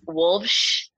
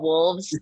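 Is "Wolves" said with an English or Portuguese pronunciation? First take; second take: Portuguese; English. First: The name is said with a Portuguese-style pronunciation. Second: The name is said with a plain English pronunciation.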